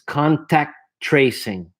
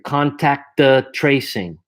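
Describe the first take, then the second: First: The words are linked with the second T nearly dropped. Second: The words are separated with an extra vowel sound. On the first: The speaker calls it right. "I pull the, the second T back" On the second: The speaker calls it wrong. "if I go slowly, uh, you're going to want to put an A after here"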